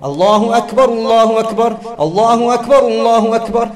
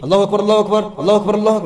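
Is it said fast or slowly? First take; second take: slowly; fast. First: It is said slowly. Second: It is said fast.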